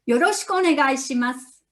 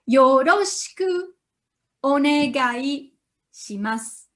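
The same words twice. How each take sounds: First: It is said quickly. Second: It is said slowly.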